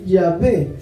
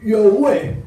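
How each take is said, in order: First: The middle consonant is a v sound. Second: The middle consonant is a w sound. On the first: This is the proper pronunciation. The speaker calls it right. "porque no pueden decir Yahvé" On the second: This is how foreign speakers who can't pronounce it say it. The speaker calls it wrong. "Está mal dicho Yahweh. Yahweh lo dicen los norteamericanos"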